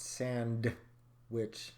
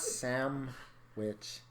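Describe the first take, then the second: First: The word is said with a D sound. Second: The word is said without a D sound. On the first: The speaker calls it right. "It's Sand Witch. Because I bring the D" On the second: The speaker calls it wrong. "It's not Sam Witch"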